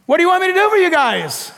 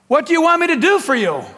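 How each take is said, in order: First: High, rapid mock query; comic calling question. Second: Quick, higher-pitched question; lightly acted call across to someone. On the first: Jesus asking two blind men, comic high question. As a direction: fire it off high and playful. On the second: Jesus calling out to two blind men, raised question. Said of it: "he called out to them".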